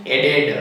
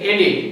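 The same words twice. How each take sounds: First: એડેડ ending in ed; everyday added. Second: એડિડ ending in id; correct added. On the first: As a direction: say એડેડ the common way. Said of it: "વધારે શું use કરીએ છીએ?". (વધારે વપરાતો ઉચ્ચાર એડેડ) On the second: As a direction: say એડિડ with id at the end. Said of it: "સાચો ઉચ્ચાર છે એડિડ". (સાચો ઉચ્ચાર એડિડ) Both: Shown as a demonstration.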